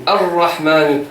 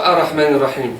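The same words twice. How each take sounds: First: "Ar-Rahman" slow with doubled r pressed; stressed shadda. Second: "Ar-Rahman Ar-Rahim" with the shadda skipped, r light; wrong version. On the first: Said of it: "Je dis Ar-Rahman". (« Ar-Rahman » lent, r doublé appuyé) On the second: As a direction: say "Ar-Rahman" quickly with a single r. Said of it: "Je dis pas". (« Ar-Rahman » sans shadda, r simple) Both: Shown as a demonstration.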